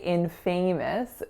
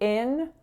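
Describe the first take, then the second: First: The stress is on the second syllable. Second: The stress is on the first syllable. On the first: The speaker calls it wrong. "but we don't say infamous" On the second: The speaker calls it right. "winner on in and then schwa"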